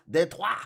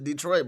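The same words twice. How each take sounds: First: It is said with a French pronunciation. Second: It is said with an American English pronunciation. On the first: The speaker calls it right. "but it should be Detroit" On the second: The speaker calls it wrong. "We pronounce it incorrectly. We pronounce it Detroit"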